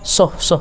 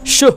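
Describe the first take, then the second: First: It starts with a plain s sound. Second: It starts with a breathy sh sound. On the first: The speaker calls it wrong. "kan kurang pas" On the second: The speaker calls it right. "Harus keluar nafasnya, ya"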